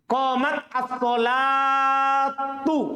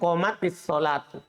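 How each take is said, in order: First: The first word ends in a bare 't' sound. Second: An 'i' vowel links the two words. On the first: This is the underlying form before joining. "Kan begini asalnya" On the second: Two vowelless sounds meet, so a vowel is inserted. "Ketemu dua sukun"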